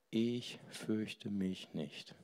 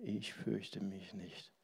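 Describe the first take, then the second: First: Softer and slow, dropping; quiet. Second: Slow, hushed whisper. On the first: Preacher quoting the Taizé song, quiet and slow. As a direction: let the line sink gently. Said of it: "ich fürchte mich nicht. (repeated)". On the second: Preacher repeating the Taizé song line, whispered. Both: Shown as a demonstration.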